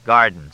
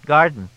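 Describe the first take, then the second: First: Emphatic repeat near usual pitch; Fletch's voice. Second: Higher, louder supplied word; pitched-up helpful prompt; Freddie's voice. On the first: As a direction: take up the word loudly. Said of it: "said Fletch". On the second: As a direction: chime in with a higher voice. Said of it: "said Freddie". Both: A narrator's reading.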